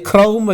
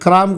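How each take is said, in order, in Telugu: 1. ఈ అక్షరం 'au' అచ్చుతో పలుకుతారు. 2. ఈ అక్షరం 'aa' అచ్చుతో పలుకుతారు. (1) "అది క్రౌం" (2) "అది క్రామ్ కాదు"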